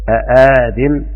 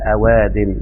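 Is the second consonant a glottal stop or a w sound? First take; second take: glottal stop; w sound. First: Two glottal stops come one after another. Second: A w sound replaces the second glottal stop. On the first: This form is harder to pronounce. The speaker calls it wrong. "لما أنطق بهمزتين متحركتين فيها صعوبة شوية" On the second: This form is easier to pronounce. The speaker calls it right. "لما نقلب الثانية واو يبقى فيه تخفيف"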